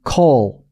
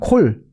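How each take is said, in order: First: The vowel is an open English aw sound. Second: The vowel is a Korean rounded o sound. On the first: "영어는 call" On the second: "그건 그 진짜 오 발음. 우리나라 말 오 발음"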